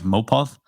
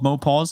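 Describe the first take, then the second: First: The name ends with a lisped th sound. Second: The name ends with a plain s sound.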